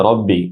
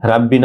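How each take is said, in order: First: রব্বি with full, rounded "raw"; heavy ra. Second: রাব্বি with thin open "raa"; wrong light ra. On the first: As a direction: say রব্বি with a thick first vowel. (রব্বি মোটা র দিয়ে) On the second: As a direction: say রাব্বি with a light first vowel. (রাব্বি পাতলা র দিয়ে) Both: Shown as a demonstration. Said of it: "রাব্বি না হয়ে রব্বি".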